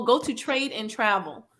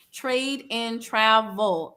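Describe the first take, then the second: First: Said in the usual way. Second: Drawn-out TRAVEL, each word separate; slow, careful repeat. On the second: Shown as a demonstration. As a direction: TRADE and TRAVEL spaced out slowly. Repeats name slowly for listeners.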